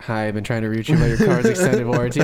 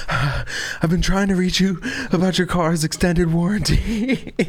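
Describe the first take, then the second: First: Louder canned recording voice, mock robocall; seashell robocall. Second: Slow, higher deadpan robocall read, mock-serious; robocall pitch. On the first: Seashell speaker greeting beachgoers, canned robocall recording. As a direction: read it like a tinny recorded message. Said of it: "where he puts in a seashell". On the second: Comedian on the rescue boat, deadpan robocall voice. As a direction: drawl the warranty line like a recorded scam call. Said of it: "he gets on the boat and he goes".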